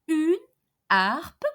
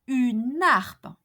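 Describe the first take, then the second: First: Une and harpe are kept apart, not linked. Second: Une runs straight into harpe, linked together. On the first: The speaker calls it right. "H here is an a aspirated H" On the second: The speaker calls it wrong. "and not"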